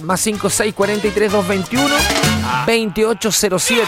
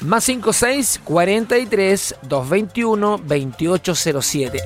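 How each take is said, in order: First: The number is read at a quick pace. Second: The number is read at a slow pace. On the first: The speaker calls it wrong. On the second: The speaker calls it right.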